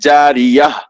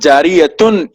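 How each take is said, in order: First: The word ends with a soft h sound. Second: The word ends with a t sound and n. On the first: The speaker calls it right. "बल्कि जारियह कहकर रुकेंगे" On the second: The speaker calls it wrong. "जारियतुन ये कहकर नहीं रुकेंगे हम"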